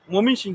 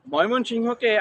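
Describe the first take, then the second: First: মমিন সিং shortened to "momin-shing"; Gazipur dialect. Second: Said in the usual way. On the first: Shown as a demonstration. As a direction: say মমিন সিং with no y glide and no final ho. (গাজীপুরের উচ্চারণে মমিন সিং, সংক্ষিপ্ত) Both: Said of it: "আমরা গাজীপুরের মানুষ".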